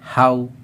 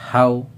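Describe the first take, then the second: Both takes have the same delivery.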